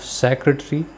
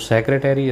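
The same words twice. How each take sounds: First: It is said with a British pronunciation. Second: It is said with an American pronunciation. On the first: "इसका जो है British pronunciation है" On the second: "इसका American pronunciation है"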